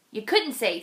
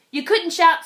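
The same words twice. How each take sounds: First: Said in the usual way. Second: "couldn't" lifted higher and louder; raised storyteller voice. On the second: A narrator's reading. Reading to children, rising louder on the moose's limits. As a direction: lean into "couldn't" with a louder push.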